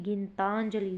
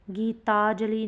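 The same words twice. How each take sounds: First: गीतांजलि with an n before ज; corrected nasal form. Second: गीतांजलि as "gee-taa-jali", no n before ज; wrong form, no nasal. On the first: Teacher giving students the correction, गीतांजलि with nasal. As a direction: sound "taan-jali" in गीतांजलि. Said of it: "गीतांजलि होगा". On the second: Teacher showing students the error, गीतांजलि without nasal. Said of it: "गीतांजलि नहीं". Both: Shown as a demonstration.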